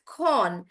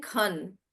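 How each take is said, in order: First: "con" with a full, open O; stressed "con", as in the noun convert; noun pronunciation. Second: "con" reduced to "kun"; short, unstressed "con", like "kun"; verb pronunciation. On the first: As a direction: draw out "con". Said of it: "pronouncing it as con". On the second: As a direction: shrink the vowel in "con". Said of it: "when I was pronouncing the verb". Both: Shown as a demonstration.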